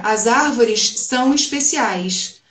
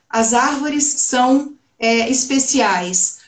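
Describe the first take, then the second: First: It has a Rio de Janeiro (carioca) S and R. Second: It has a neutral, non-carioca S and R. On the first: The speaker sounds like a local. "isso para a gente aqui no Rio de Janeiro seria" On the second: The speaker does not sound like a local. "se eu falar todos os sons com os S de São Paulo e os R's aqui do Rio"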